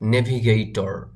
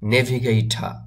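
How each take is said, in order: First: The final r sound is clearly pronounced. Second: The final r sound is left silent. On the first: "টর বলি" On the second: "এই আরটাকে বলে না, এটা silent রাখে"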